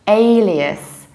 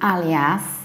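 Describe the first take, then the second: First: The first vowel is like 'alien'. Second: The first vowel is not like 'alien'. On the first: The speaker calls it right. "A like alien and reduced ending" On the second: The speaker calls it wrong. "not alias"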